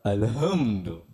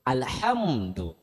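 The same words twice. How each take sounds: First: The h is a light, plain breathy sound. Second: The h is a harsh sound from the throat. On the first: It means ruin or destruction. The speaker calls it wrong. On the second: It means praise. The speaker calls it right. "dengan makhorijul huruf yang betul"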